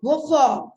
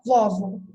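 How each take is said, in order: First: "Vovó" stressed on the final open -vó; stress on last syllable. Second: "vovo" stressed on the first syllable, VÓ-vo; misplaced stress. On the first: Teacher showing the accented word, final stress on "Vovó". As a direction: land louder on the end of "Vovó". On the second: Teacher showing the wrong reading, first-syllable stress on "vovo". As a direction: hit the start of "vovo", weak last vowel. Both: Shown as a demonstration. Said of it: "Não é".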